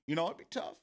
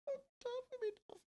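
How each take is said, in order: First: Said in the usual way. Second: "It'd be tough" in a much higher, softer mock whimper; mock wail. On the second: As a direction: fake a tiny sad cry, way up high. Mock self-pity about dying.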